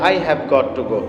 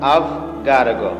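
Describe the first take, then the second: First: Every word is said fully and separately. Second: The words are contracted and run together. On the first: "আমরা যারা simple অ্যাকসেন্টে বলি" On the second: "একটু fluency ভাবে বা আপনি যদি একটু চমৎকার করে বলতে চান"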